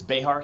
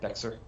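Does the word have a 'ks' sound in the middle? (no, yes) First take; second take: no; yes. First: The middle sound is a soft h, no ks. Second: The middle sound is a ks, like the letter x. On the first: The speaker calls it right. "it's Behar County" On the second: The speaker calls it wrong. "Not Bexar"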